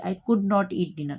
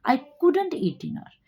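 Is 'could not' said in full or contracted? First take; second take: full; contracted. First: 'Could not' is said as two full words. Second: 'Could not' is contracted to 'couldn't'. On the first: The speaker calls it wrong. "Speaking में बोलेंगे तो आप ऐसे नहीं बोलेंगे" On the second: The speaker calls it right. "आप बोलेंगे"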